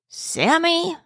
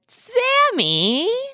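First: It sounds puzzled and not happy. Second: It sounds warm and much happier.

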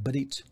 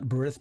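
First: The word ends with a hard t sound. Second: The word ends with a soft th sound. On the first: The speaker calls it right. "but berit" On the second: The speaker calls it wrong. "It's not berith"

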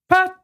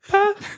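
First: The name is shouted at a loud volume. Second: The name is said at a quieter volume. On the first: The speaker calls it wrong. "It's also really loud" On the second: The speaker calls it right. "Oh, better"

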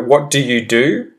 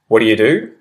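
First: Every word is said fully and distinctly. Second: The words run together quickly and reduced. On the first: "correct, proper, well-enunciated English first" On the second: "the sped-up sort of change in pronunciation"

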